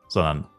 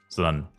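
The two takes are said the same way.

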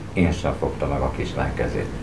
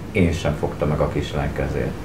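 The two takes are said the same way.

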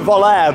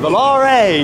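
First: The word is said with an English-sounding pronunciation. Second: The word is said with an Italian-sounding pronunciation. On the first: The speaker calls it wrong. "I used to pronounce it Volare" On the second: The speaker calls it right. "they are an Italian company, so it's more like Volare"

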